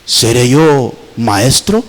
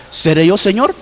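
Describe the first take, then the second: First: Much lower, heavy question; Judas asking. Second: A gentle questioning rise on Señor; disciples asking humbly. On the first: Preacher voicing Judas answering Jesus, low sly question. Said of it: "¿Y sabe qué preguntó?". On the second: Preacher voicing the eleven disciples asking Jesus, humble question. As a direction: ask it like an anxious disciple. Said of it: "así los once se preguntaron". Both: Retold or imitated.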